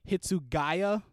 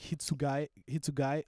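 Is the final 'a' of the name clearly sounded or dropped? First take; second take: clearly sounded; dropped. First: The final vowel is clearly pronounced. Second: The final vowel is dropped or barely heard. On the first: The speaker calls it wrong. "some people say Hitsugaya" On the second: The speaker calls it right. "it's actually like Hitsugaya"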